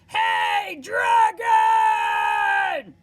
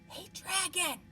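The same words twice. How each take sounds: First: It is shouted very loudly. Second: It is whispered very softly.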